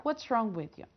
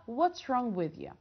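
No difference in how they are said.

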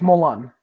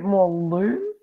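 First: The second syllable has a short 'u' vowel. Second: The second syllable has a long 'oo' vowel. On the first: The speaker calls it right. "there's no umlaut over the U. ... make it Lun" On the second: The speaker calls it wrong. "If it had the umlaut, like the two dots over the U, okay. That would make it more Loon"

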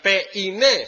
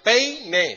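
First: The e and i fall in separate syllables. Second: The e and i glide together in one syllable. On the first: The speaker calls it wrong. "No sería peine" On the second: The speaker calls it right. "va junto"

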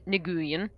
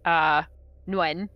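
First: A G sound is heard at the start. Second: No G sound is heard at the start. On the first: "some of them pronounced the G" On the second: "Like there's just no G"

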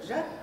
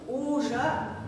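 First: The opening 'u' vowel is dropped entirely. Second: The opening rounded 'u' vowel is clearly pronounced. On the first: The speaker calls it wrong. "А мы слышим, что, да?" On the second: The speaker calls it right. "Губы должны сложиться на у-у-у"

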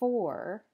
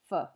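First: The word is said with its full vowel. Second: The word is said with a weak schwa vowel. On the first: "the full form" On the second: "the weak form, which is what often happens in spoken English"

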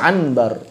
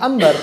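First: An n sound is heard before the b. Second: An m sound is heard before the b. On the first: The speaker calls it wrong. "Enggak dibaca anbar" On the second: The speaker calls it right. "mereka bacanya ambar"

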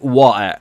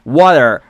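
First: It is said in a British accent. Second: It is said in an American accent. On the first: "تلفظ بریتیشش" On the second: "تلفظ امریکاییش"

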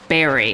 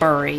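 First: The vowel is the usual American one, unlike the spelling. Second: The vowel follows the spelling with a u sound. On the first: The speaker calls it right. "at least here in America, we say bury" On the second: The speaker calls it wrong. "and not bury, even though it's spelled bury"

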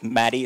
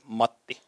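First: The name is said with an American pronunciation. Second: The name is said with a Finnish pronunciation. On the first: The speaker calls it wrong. "Americans say that my name is Matti. It's not Matti" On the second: The speaker calls it right. "it's Matti"

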